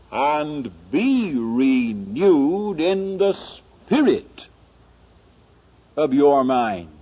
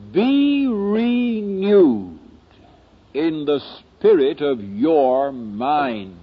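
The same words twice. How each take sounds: First: Slow verse reading with "spirit" lifted out; stress on spirit. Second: Slow, measured verse with weight landing on "mind"; stress on mind. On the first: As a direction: lean on "spirit", then pause and let the rest fall. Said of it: "the emphasis isn't on the mind". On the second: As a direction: draw out "mind" as the key word, falling at the end. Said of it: "I've been emphasizing the word mind". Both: Shown as a demonstration.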